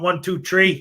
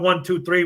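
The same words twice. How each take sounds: First: The numbers are said in a strong Chicago accent. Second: The numbers are said in a standard American accent. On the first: This is how people from Chicago count. "We count one, two, three" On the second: This is how people elsewhere count. "we don't count one, two, three"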